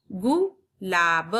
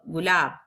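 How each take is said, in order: First: गुलाब split slowly; slow syllable split. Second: Said in the usual way. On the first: Shown as a demonstration. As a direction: sound out गुलाब part by part. (गुलाब को धीरे धीरे तोड़कर) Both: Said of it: "जल्दी होता है".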